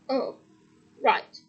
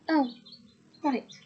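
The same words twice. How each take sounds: First: It is said in another character's voice. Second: It is said in Harry's voice.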